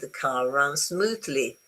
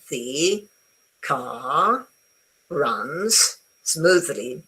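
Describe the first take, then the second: First: The words are linked together smoothly. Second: Each word is spoken separately and carefully. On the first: It is said as a normal sentence. "if you want to kind of have a sentence, you say" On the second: The words are being dictated. "if you are dictating something, then you spell it out"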